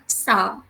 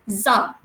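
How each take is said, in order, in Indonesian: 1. Suku kata itu dimulai dengan bunyi s. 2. Suku kata itu dimulai dengan bunyi z. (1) "kita tak panggil dia sa" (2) "tetapi za"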